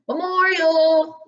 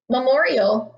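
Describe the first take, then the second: First: The word is called out like a train conductor. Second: The word is read in a plain reading voice.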